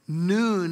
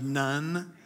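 First: The vowel is long, as in 'moon'. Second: The vowel is short, as in 'sun'. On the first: The speaker calls it right. "Noon is how you pronounce it" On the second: The speaker calls it wrong. "There's a running joke that Joshua didn't have the father because he was the son of"

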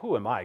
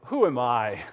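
First: It sounds sincerely humble and modest. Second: It sounds falsely modest, fishing for insistence.

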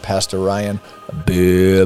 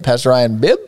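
First: The name is said in a low pitch. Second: The name is said in a high pitch.

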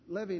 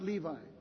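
First: It is not pronounced like the jeans brand. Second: It is pronounced like the jeans brand. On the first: The speaker calls it right. "Levi is a Hebrew name" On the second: The speaker calls it wrong. "not Levi. ... Levi's are jeans"

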